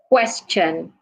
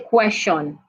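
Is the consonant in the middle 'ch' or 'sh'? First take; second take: ch; sh. First: The middle consonant is a sudden, sharp 'ch'. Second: The middle consonant sounds like a soft 'sh'. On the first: The speaker calls it right. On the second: The speaker calls it wrong.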